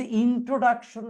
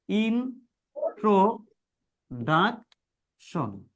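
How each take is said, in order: First: Said in the usual way. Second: introduction very slowly, a pause between each syllable; introduction drawn out piece by piece; broken into syllables. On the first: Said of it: "একভাবে পড়তে গেলে বা একটানে পড়তে". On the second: Shown as a demonstration. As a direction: say introduction in four separate chunks: in, tro, duc, tion. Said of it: "তখন তুমি এটা ভেঙে ভেঙে পড়বা".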